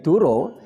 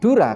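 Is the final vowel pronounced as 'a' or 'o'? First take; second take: o; a. First: The final vowel is a rounded 'o' sound. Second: The final vowel is an open 'a' sound. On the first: It means a lie. The speaker calls it wrong. "menjadi Duro, ini sangat tidak relevan" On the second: It means water. The speaker calls it right. "Dura kalau dibaca O"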